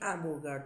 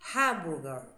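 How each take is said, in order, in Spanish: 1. El sonido de la h inicial es silencioso. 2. El sonido de la h inicial se aspira claramente. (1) "vos dijiste hamburger también" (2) "es hamburger en inglés"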